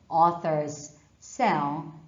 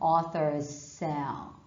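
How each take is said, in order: First: The s sound is said twice, words separated. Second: One held s sound links the two words. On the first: The speaker calls it wrong. "Not authors sell, ... Don't pronounce the consonant twice" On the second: The speaker calls it right. "but authors sell"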